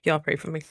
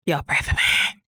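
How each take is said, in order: First: Said in the usual way. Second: Breathy whispered plea. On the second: Real, not acted.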